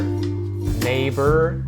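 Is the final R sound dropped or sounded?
sounded. The final R is sounded with a curled tongue. The speaker calls it wrong. "That is a very American sound with that R sound"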